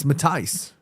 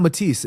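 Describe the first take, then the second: First: "Matthijs" said ma-TICE, rhyming with paradise; the corrected Dutch name, "Matthijs"; corrected pronunciation. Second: "Matisse" said the French way, ending -iss; the mistaken version, "Matisse"; wrong pronunciation. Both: Shown as a demonstration. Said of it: "The Dutch pronunciation is Matthijs?".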